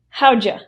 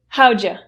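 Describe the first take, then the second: The two takes are said the same way.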